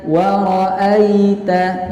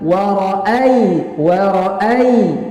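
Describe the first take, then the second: First: The word is said in a gentle, soft way. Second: The word is said in a hard, pressed way. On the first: The speaker calls it right. "dibaca dengan lembut saja" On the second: The speaker calls it wrong. "jangan jangan dibaca warai warai ya, jangan seperti itu"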